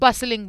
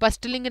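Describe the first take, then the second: First: The T sound is left out completely. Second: The T sound is pronounced in the middle. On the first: The speaker calls it right. "बसलिंग बोलेंगे" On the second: The speaker calls it wrong. "बस्टलिंग नहीं बोलेंगे इसे"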